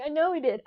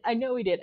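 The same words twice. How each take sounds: First: Higher first take, leaning on know; I know he did, stressing know; emphatic agreement. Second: Said in the usual way. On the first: Retold or imitated. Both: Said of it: "I'm like".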